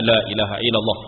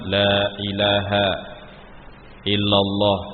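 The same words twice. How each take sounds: First: The phrase is said quickly and hurriedly. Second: The phrase is said slowly and gently. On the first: The words are rushed at the listener's ear. The speaker calls it wrong. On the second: The dying person is guided to say it themselves. The speaker calls it right.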